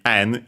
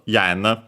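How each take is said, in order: First: The word begins directly with a vowel. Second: The word begins with a 'y' sound. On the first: This is the modern pronunciation. "nowadays actually simply n in Japanese" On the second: This is the older pronunciation. "it was actually pronounced yen"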